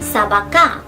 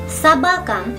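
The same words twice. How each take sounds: First: The stress is on the last syllable. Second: The stress is on the second syllable. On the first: "si el acento estuviera en la última letra A" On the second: "tiene un acento en la A intermedia"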